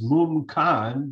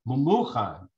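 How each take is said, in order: First: The name is said with two syllables. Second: The name is said with three syllables. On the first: This is how the name is written. "the Ksiv is" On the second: This is how the name is read aloud. "we pronounce it"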